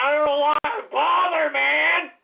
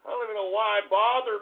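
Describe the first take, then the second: First: Higher and louder, fed up; louder exasperated repeat. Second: Said in the usual way. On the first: Real, not acted. Streamer repeating his complaint to chat, exasperated and louder. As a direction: say it again, angrier.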